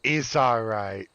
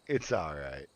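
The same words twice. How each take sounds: First: Slow, drawn-out reassurance; soothing higher take. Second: "It's all right" dropped low and soft; lower soothing take. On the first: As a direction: start it a little high and soothe. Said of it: "I went too high". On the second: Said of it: "Let me go lower". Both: Shown as a demonstration.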